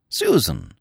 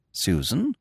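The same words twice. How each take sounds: First: Falling considered Susan; Susan, deciding it sounds fine; musing. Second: Rising doubtful Susan; Susan, testing the name; questioning. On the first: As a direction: Susan settled with a falling tune. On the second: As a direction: Susan asked with a rising tune. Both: Acted. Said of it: "repeats name musing".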